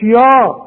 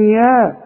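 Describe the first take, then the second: First: يا with a thick, dark "yaw"; wrong heavy yaa. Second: يا with a thin front vowel; light yaa. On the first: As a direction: thicken يا as the mistake to avoid. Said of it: "مش يا". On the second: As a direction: say يا lightly, not thickened. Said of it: "الياء في القرآن يا". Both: Shown as a demonstration.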